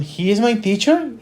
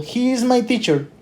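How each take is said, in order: First: The voice rises at the end. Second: The voice falls at the end. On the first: It sounds like a question. The speaker calls it wrong. "It is not" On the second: It is stated as a fact. The speaker calls it right. "Notice my intonation"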